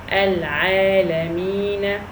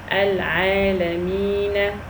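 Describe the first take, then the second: First: The word ends with a short a vowel. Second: The same.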